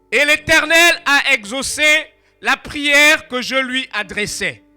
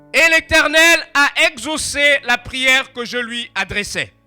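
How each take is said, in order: Both takes have the same delivery.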